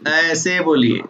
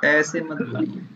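First: Said in the usual way. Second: Softer, the mumbled way not to speak; too quiet demo. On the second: Shown as a demonstration. To a quiet student, showing the wrong soft voice. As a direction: show the student how faint they sound. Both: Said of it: "इतना धीरे बोलिए तो कैसे आएगा".

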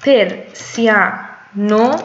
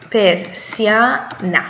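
First: پرسیانو slow with final o; Italian ending o. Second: پرسیانا slow with final a; Italian ending a. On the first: Teacher modelling the masculine ending: پرسیانو slow. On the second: Teacher modelling the feminine ending: پرسیانا slow. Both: Shown as a demonstration.

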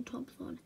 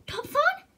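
First: Said in the usual way. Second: High, loud, rising echo of the name; astonished question. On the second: Acted. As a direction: blurt Topthon as a startled question. Owner recognises her horse's name.

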